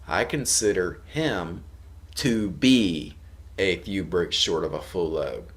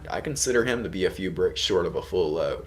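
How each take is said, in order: First: The sentence is said at a slower, careful pace. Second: The sentence is said at a fast, quick pace.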